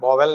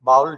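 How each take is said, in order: First: The word is said with two syllables. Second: The word is said with one syllable. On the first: The speaker calls it wrong. "બોવેલ નહીં" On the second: The speaker calls it right. "બાઉલ છે"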